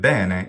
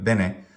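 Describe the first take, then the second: First: The first syllable is stretched long. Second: Both syllables are short. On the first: It is the Italian word. "bene is the word in Italian" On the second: It is the Latin word. "bene is the Latin word"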